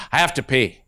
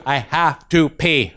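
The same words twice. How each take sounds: First: Put-on a kid quietly confessing; little boy. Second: Put-on very slow kid voice; slow little boy. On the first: Little boy telling the teacher, quiet kid voice. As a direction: lower small-boy voice. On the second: Little boy repeating to the teacher, slow and deliberate. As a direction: drag each word out. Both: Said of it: "He goes".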